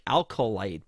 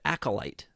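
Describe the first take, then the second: First: The first syllable is altered, not plain 'a-co'. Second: The first syllables are a plain 'a-co'. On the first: The speaker calls it wrong. "I want to say like Alcolite, but it's clearly A C O" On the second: The speaker calls it right. "Does that sound right?"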